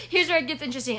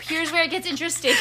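First: Said in the usual way. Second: Teasing buildup. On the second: Acted.

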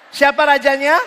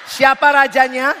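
Both takes have the same delivery.

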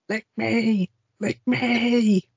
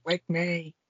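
First: "lick me" climbing higher each time into a hammed-up cry; building mock moan. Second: Soft lick me. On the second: Retold or imitated. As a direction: murmur "Lick me" teasingly under the breath. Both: Acted raunchy quote from movie.

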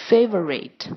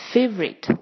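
First: "favorite" in three syllables, FAY-vuh-rit; full form. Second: "favorite" in two syllables, FAYV-rit; elided schwa. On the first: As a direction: keep the middle schwa in "favorite". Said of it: "这种省略的方法". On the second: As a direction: drop the middle vowel of "favorite". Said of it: "我们都念成". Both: Shown as a demonstration.

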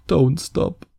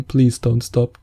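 First: Fading, higher don't stop; softer mock moan. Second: Drawn-out, hammed-up please don't stop; begging in fake bliss; mock pleading moan. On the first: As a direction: trail off in fake bliss. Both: Mock pleasure during a hug.

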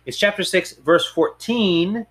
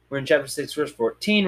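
First: "chapter" falling, "fourteen" drawn out slowly; corrective stress. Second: Said in the usual way. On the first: Real, not acted. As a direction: stretch "verse fourteen" to fix it. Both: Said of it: "oh, I lied again".

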